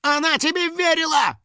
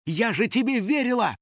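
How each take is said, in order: First: Very high, squealing indignation; angry outcry. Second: Furious. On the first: House spirit echoing the girl's accusation, angry. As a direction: shriek the accusation on her behalf. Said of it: "также гневно воскликнул Финик". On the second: Betrayed girl who had trusted him, furious. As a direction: accuse him in a high voice. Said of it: "от ярости закричала Кристина". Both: A narrator's reading.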